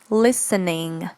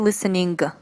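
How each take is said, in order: First: The word ends without a g sound. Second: The word ends with an audible g sound. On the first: The speaker calls it right. "We don't pronounce the G at the end" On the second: The speaker calls it wrong. "We don't say listening"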